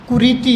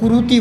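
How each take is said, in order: First: The middle vowel is a long 'ee' sound. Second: The middle vowel is a long 'oo' sound. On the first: The speaker calls it right. "वो कुरीति है एक शब्द" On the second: The speaker calls it wrong. "उसको कुरूति बोलते हैं"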